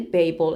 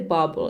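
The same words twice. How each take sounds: First: The word has an English pronunciation. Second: The word has a Finnish pronunciation. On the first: "Do you say Babel in English?" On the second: "We say Babel in Finnish"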